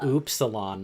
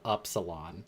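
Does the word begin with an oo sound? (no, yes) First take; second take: yes; no. First: The word begins with an oo sound. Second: The word begins without an oo sound. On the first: The speaker calls it right. "the names of the letters have the sound that they make in them" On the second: The speaker calls it wrong.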